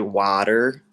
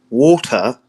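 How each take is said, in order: First: The word is said in an American accent. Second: The word is said in a British accent. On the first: "Americans say water" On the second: "British people are like water"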